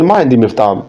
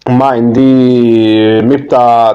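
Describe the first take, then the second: First: It is said smoothly, with flow. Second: It is said haltingly, without flow.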